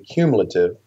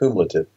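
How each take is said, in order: First: The L sound is in its usual place. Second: The L sound is moved to another spot. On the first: The speaker calls it right. "It would be cumulative instead of" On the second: The speaker calls it wrong. "I put the L in the wrong place"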